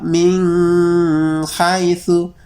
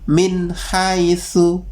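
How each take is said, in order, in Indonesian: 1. n-nya ditahan dengan dengung sengau. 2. n-nya diucapkan jelas, tanpa dengung. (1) "enggak dengung" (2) "Minnya jelas, haitsunya jelas"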